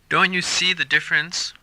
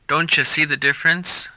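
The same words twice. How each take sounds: First: The t and y are said as separate sounds. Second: The t and y merge into a ch sound.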